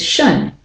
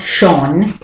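First: "shun" with a short neutral vowel; de-stress "shun" to a schwa; reduced schwa. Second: "shon" with a clear rounded "o"; wrong full vowel. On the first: Teacher correcting the weak syllable, reduced vowel. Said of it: "it's shun". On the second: Teacher showing what it's not, full vowel. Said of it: "it's not shon". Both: Shown as a demonstration.

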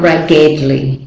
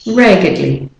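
First: "raggedly" with a full E, as rag-GED-lee; wrong full vowel. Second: "raggedly" as RAG-uhd-lee, middle reduced to schwa; correct weak vowel. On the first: Teacher showing what not to say, "raggedly" as rag-GED-lee. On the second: Teacher correcting learners, "raggedly" with schwa. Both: Shown as a demonstration. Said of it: "Not raggedly".

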